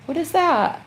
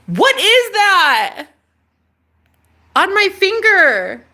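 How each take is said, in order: First: Said in the usual way. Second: High, loud and slow; startled by something on your finger; alarmed question. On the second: Real, not acted. Asking viewers about the thing on her finger, startled.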